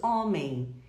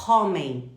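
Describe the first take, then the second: First: "homem" begun on the open vowel, no H; silent H. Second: "homem" with a loud, breathy H in front; wrongly sounded H. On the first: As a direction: say "homem" the normal Portuguese way, H unsounded. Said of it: "nós dizemos homem". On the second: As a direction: punch out "homem" with an English-style aspirated H. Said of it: "nós não falamos". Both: Shown as a demonstration.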